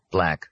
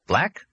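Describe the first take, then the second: First: "Black." said level with a falling tune; flat answer. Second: "Black?" asked with a sharp high rising tune; questioning rise. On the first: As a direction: settle it: "Black." falling, final. Jack answers about the coffee. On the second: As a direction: ask "Black?" as a quick question going up. Arnie asks about the coffee. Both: Acted.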